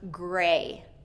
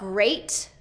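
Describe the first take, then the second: First: The final T sound is left off. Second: The final T sound is clearly pronounced. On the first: The speaker calls it wrong. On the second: The speaker calls it right.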